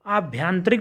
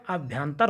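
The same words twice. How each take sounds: First: आभ्यंतरिक with an added "ik"; wrong word form. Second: Said in the usual way. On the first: Shown as a demonstration. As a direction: say the mistaken longer form आभ्यंतरिक. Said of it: "नहीं होगा". (आभ्यंतरिक, अंत में रिक) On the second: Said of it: "होगा".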